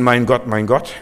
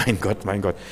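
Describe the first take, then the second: First: Exasperated "mein Gott, mein Gott" with a rising end; a light grumbling "mein Gott, mein Gott"; mild mock cursing. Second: Softer, lower, reverent "mein Gott, mein Gott"; tender, worshipful "mein Gott, mein Gott"; praising. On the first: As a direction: swear it in mild annoyance. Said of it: "ich kann schimpfen". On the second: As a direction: say it as quiet adoration, with a little laugh. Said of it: "ich kann Gott preisen". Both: Shown as a demonstration.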